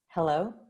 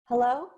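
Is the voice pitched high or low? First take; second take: low; high. First: The voice is pitched low in the range. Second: The voice is pitched high in the range. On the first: "Here's me at the bottom of my breath" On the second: "here's me at the top of my breath"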